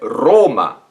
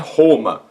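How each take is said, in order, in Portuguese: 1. O R tem um som latino. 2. O R tem um som brasileiro. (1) "é Roma" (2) "não é Roma"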